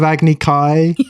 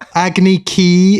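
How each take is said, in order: First: The second word rhymes with 'sky'. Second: The second word rhymes with 'key'. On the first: This is how the original says it. The speaker calls it right. "instead of Agni Kai" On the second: This is how the film says it. The speaker calls it wrong. "Agni Ki instead of"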